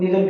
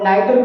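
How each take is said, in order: First: The first vowel sounds like 'ee'. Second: The first vowel sounds like 'eye'. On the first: "pronounce निदर भी किया जाता है" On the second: "नाइदर को pronounce"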